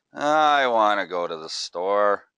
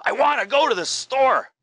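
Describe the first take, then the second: First: Slow, drawn-out and firm, leaning on "I"; slow deliberate tone. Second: Much higher and louder, punching "go"; high excited tone. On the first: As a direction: say it slowly and deliberately, stressing "I". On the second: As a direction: jump way up in pitch and hit "go". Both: Shown as a demonstration. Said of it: "I can change that exact phrase just with my tone".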